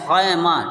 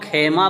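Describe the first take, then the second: First: The first vowel is an 'ai' sound. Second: The first vowel is an 'e' sound. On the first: The speaker calls it right. "बल्कि ये है खैमा" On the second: The speaker calls it wrong. "इसको कुछ लोग खेमा बोलते हैं"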